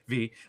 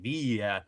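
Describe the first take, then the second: First: It is a single short syllable, like the letter. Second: It ends with a stressed glide, two syllables. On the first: "so I just say V" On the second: "a slightly more, like, accent on the Y, so it's more like Via"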